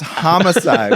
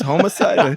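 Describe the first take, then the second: First: The first syllable is said like 'hom'. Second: The first syllable is said like 'homo'. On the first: It means the killing of a person. The speaker calls it right. "It's homicide" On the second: The speaker calls it wrong.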